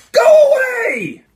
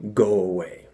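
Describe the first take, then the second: First: Huge drawn-out high scream; top-of-lungs yell. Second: Said in the usual way. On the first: Retold or imitated. Bored prankster in a restroom stall, yelling at the top of lungs. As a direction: bellow it as loud as you can, stretched out. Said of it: "At the top of my lungs, I just yell". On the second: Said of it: "I'm just gonna yell".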